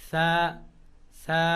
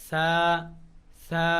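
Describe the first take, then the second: No difference in how they are said.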